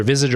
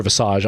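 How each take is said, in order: First: Visage as "VIZ-idge"; anglicised Visage ending in "idge"; English pronunciation. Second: Visage as "vih-SAHZH"; French-style pronunciation. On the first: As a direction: stress the first syllable of Visage. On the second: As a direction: stress the second syllable of Visage. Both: Shown as a demonstration. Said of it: "either Visage or Visage".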